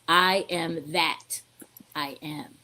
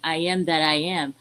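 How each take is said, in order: First: The stress falls on that. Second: The stress falls on the final am.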